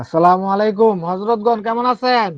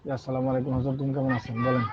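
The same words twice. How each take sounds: First: Slow, loud greeting to the audience. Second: Hushed voice into the phone; whispering on the phone. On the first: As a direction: greet the whole room, slow and full. Host greets callers on air. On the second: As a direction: keep it low, others are nearby. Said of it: "আমি এখন ক্লাসে আছি তো". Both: Real, not acted.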